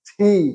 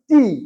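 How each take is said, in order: First: The t has a strong puff of air. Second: The t has no puff of air. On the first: The speaker calls it right. "এটা হচ্ছে থি" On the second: The speaker calls it wrong. "আমরা সবসময় এটা করছি টি"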